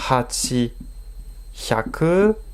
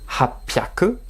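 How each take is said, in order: First: It is said as two separate full parts. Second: It is contracted with a p sound. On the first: The speaker calls it wrong. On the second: The speaker calls it right.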